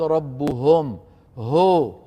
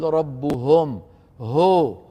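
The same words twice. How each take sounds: First: The vowel sounds like an open 'o'. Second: The same.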